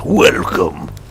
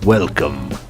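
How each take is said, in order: First: It is said in a Resident Evil character voice. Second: It is said in her normal voice.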